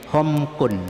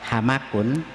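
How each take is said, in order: First: The first vowel is o, with no vowel after m. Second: Both the first and second syllables have an a vowel. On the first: "dengan dhammanya ha, ya, dan sukunnya mim" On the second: "bi fathataini, ya, dengan dua fathah"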